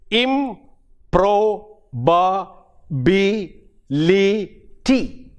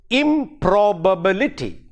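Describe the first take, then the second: First: "improbability" very slow, im, pro, ba, bi, li, ty, each apart; syllable by syllable. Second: Said in the usual way. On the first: Shown as a demonstration. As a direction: spell out the six beats of "improbability" with even gaps. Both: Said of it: "There are six syllables in it".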